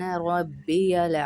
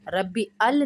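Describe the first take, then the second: First: The words are linked with a 'y' glide. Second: The words are separated without a 'y' glide. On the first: The speaker calls it right. "सुब्हान रब्बियल अज़ीम" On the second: The speaker calls it wrong. "रब्बी अल नहीं होता है"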